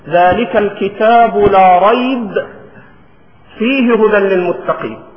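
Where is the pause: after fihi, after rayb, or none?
after rayb. There is a pause after the word rayb. "فيصح أن تقف على ريب"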